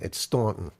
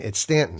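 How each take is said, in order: First: The first vowel is an open 'aw' sound. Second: The first vowel is a short 'a' sound. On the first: The speaker is from the New York area. "If you got the New York or New Jersey tri-state area accent" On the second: The speaker is a local from Virginia. "But if you're from Virginia"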